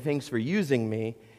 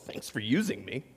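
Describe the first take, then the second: First: It is said in a plain, sincere tone. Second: It is said in a bitter, sarcastic tone. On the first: The speaker is truly grateful to be used. The speaker calls it right. "it's very difficult sometimes for us to say thanks for using me" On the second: The speaker feels exploited and unappreciated. The speaker calls it wrong. "It's all intonation. That's the thanks I get"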